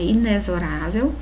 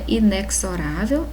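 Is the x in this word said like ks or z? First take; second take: z; ks. First: The x is said like z. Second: The x is said like ks. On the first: The speaker calls it right. "é inexorável" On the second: The speaker calls it wrong. "Não é inexorável"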